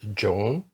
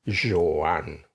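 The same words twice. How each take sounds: First: The name is given an English-style pronunciation. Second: The name is given a Catalan pronunciation. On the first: The speaker calls it wrong. "I thought it was Joan, spelled J O A N" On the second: The speaker calls it right. "the Catalan pronunciation is really Joan"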